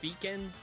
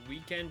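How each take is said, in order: First: The word begins with a V sound. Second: The word begins with a W sound. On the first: This is a way people do not say it. "they don't say weekend" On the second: This is how people still say it. "they still say weekend because you know it's an English word"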